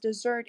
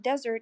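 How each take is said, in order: First: The stress is on the second syllable. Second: The stress is on the first syllable. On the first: It means to abandon someone. "when we pronounce it as desert" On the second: It names a dry, desolate area. "When the first syllable is stressed"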